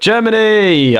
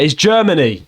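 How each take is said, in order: First: Germany! drawn out slowly and higher, playfully cheered; mock cheer. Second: Said in the usual way. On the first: Host echoing the guest's cheer, slowly and playfully. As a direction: stretch Germany! out like a mock chant.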